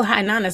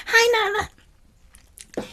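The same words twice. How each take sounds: First: Said in the usual way. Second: Put-on "Hi, Nana" drawn out very high and slow, childlike; lightly imitating a toddler's happy hello; sweet little niece. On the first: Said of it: "she don't always go". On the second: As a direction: sing it out like a delighted small child greeting grandma. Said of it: "she goes".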